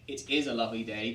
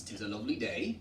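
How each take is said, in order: First: Said in the usual way. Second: "it is" run together as "'tis"; old rural English, opening on a clipped "'tis"; eighteenth-century contraction. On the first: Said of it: "different way of speaking itself". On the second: Shown as a demonstration.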